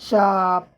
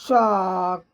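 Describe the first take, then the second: Both takes have the same delivery.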